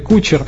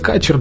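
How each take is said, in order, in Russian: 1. Первый гласный звучит как 'u'. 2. Первый гласный звучит как 'a'. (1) "то ли кучер" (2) "то ли качер"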